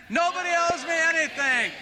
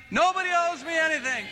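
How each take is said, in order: First: High, all-out shout; louder shout. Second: High, full-voiced shout with the crowd. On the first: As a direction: shout it with everything you have. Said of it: "Shout it again". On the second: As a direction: lead the congregation in a shout. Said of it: "Will you shout it with me?". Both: Real, not acted.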